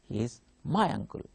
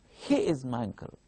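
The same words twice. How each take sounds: First: The stress falls on the word my. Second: The stress falls on the word he. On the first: He is not someone else's uncle. "my stress will be on my" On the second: It is this person, not another person. "I am giving stress on he"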